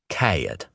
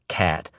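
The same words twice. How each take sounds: First: The vowel glides, almost two syllables. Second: The vowel is a single plain sound.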